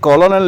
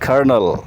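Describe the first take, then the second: First: It is said as ko-lo-nel, three syllables. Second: It is said as ker-nel, two syllables. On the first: The speaker calls it wrong. "इसे कॉलोनल नहीं बोलते" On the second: The speaker calls it right. "बल्कि बोलते हैं कर्नल"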